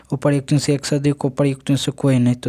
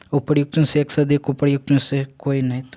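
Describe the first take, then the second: No difference in how they are said.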